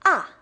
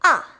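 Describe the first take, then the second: First: The pitch falls sharply from high to low. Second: The pitch falls sharply from high to low.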